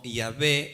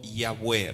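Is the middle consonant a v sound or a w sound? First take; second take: v sound; w sound. First: The middle consonant is a v sound. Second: The middle consonant is a w sound. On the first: This is a modern form of the name. The speaker calls it wrong. "Yahvé es incorrecto" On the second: This is the form in which the name was revealed. The speaker calls it right. "U en consonante sería W"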